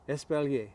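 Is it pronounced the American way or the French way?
French. It is pronounced the French way.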